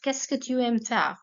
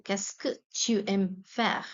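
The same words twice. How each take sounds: First: Said in the usual way. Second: Slow, careful repeat of "Qu'est-ce que tu aimes faire?"; unhurried classroom repetition. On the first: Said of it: "teacher models question then repeats". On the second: Shown as a demonstration. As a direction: spell the question out for learners. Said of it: "teacher repeats question slowly".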